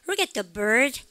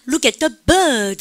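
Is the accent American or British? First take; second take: American; British. First: It has an American accent with the r sound. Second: It has a British accent without the r sound. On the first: "미국 애들은 뭐라고 합니까?" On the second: "영국 애들 이걸 뭐라고 합니까?"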